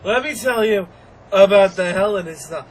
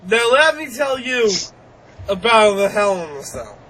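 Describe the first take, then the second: First: Louder repeat. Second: Bill Cosby impression. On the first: Retold or imitated. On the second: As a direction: lightly mimic Bill Cosby announcing the match. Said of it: "When did he turn into picking Bill Cosby".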